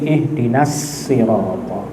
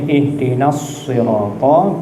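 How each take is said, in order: First: The word 'sirata' begins with a plain 's' sound. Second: The word 'sirata' begins with an emphatic 's' sound.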